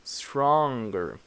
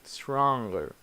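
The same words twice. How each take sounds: No difference in how they are said.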